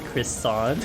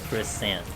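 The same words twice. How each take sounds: First: The last syllable rhymes with 'want'. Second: The last syllable rhymes with 'ant'. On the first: The speaker calls it right. "You say the word croissant" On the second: The speaker calls it wrong. "You don't say croissant"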